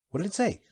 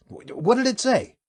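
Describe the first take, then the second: First: Said in the usual way. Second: Higher, louder, stumbling repeat; startled stammer. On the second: Acted. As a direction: blurt it again in shock.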